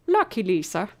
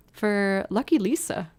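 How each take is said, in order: First: A hammed-up Irish lilt on "Lucky Lisa"; greeting a viewer in a jokey Irish accent; bad Irish accent. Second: Said in the usual way. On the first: Streamer greets viewer Lucky Lisa in a mock Irish accent. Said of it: "That was a terrible Irish accent".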